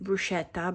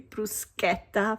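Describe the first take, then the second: First: It is said the common English way. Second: It is said the Italian way. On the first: The speaker calls it wrong. "I know you pronounce it bruschetta, but that's not the right pronunciation" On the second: The speaker calls it right. "Maybe you can say bruschetta from now on. it will make every Italian really happy"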